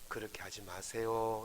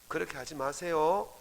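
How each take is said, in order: First: It is said in a quiet, low voice. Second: It is said in a medium, raised voice. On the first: This is a first, gentle request to change. "조용한 목소리로" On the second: This is a firmer request after a repeated fault. "중간 톤으로"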